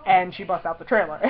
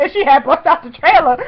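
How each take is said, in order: First: Said in the usual way. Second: High, loud gushing; giddy loud rambling; excited babbling. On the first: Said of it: "but I didn't care because". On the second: Retold or imitated. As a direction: blurt it out, too thrilled to make sense. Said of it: "looked like a babbling idiot".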